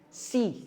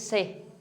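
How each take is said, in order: First: The vowel sounds like 'i'. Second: The vowel sounds like 'e'. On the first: The speaker calls it right. "gawin yung si" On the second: The speaker calls it wrong. "Huwag nyo siyang gagawin yung se"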